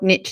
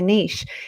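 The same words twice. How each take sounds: First: It is said the American way, like 'nitch'. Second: It is said the British way, like 'neesh'.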